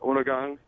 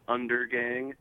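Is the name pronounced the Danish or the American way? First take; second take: Danish; American. First: It is pronounced the Danish way. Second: It is pronounced the American way.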